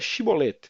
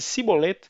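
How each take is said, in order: First: The word begins with a 'sh' sound. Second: The word begins with an 's' sound. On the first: The speaker calls it right. "eles pediam que a pessoa proferisse a palavra" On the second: The speaker calls it wrong. "porque não conseguia pronunciar corretamente a palavra"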